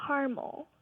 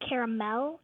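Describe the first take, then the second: First: Caramel as CAR-mul, two syllables; mom's two-syllable caramel. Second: Caramel as CARE-uh-mel, three syllables; dad's three-syllable caramel. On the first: Caller showing her Texan mom's way, caramel as CAR-mul. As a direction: say caramel with an AH and no middle vowel. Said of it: "my mom calls it". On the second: Caller showing her Nebraska dad's way, caramel as CARE-uh-mel. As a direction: say caramel with an EH in front and a clear MEL. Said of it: "So he calls it". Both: Shown as a demonstration.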